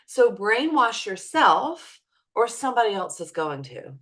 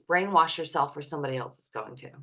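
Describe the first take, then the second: First: It is said slowly and clearly. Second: It is said at a normal speed.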